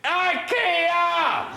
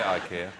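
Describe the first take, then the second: First: The word is shouted very loudly. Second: The word is said at normal volume.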